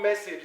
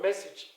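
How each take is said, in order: First: The final vowel is a long a sound. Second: The final vowel is a short e sound. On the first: The speaker calls it wrong. "It's not called message" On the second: The speaker calls it right. "it's called what? Message"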